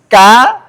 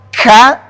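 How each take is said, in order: First: The k has a light, natural puff of breath. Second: The k has a heavy, exaggerated puff of breath. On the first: The speaker calls it right. "jadi jangan dibuat-buat, yang biasa-biasa aja" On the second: The speaker calls it wrong. "kalau ka terlalu berlebihan"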